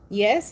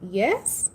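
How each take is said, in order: First: The voice falls at the end like a statement. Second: The voice rises at the end like a question. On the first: It is a plain answer. The speaker calls it wrong. "You just can't be like" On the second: It invites the other person to agree. The speaker calls it right. "like a question"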